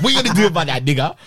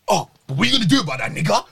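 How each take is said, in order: First: Mock taunt broken by laughter; girl's taunt retold while laughing. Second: Rattled off fast, a quick mock taunt; quick, lightly mocked taunt from the girl. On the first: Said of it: "she gets off in my face and she goes". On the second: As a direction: fire the taunt off quickly, like she said it. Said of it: "And then she goes".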